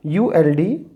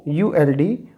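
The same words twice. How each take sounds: The two takes are said the same way.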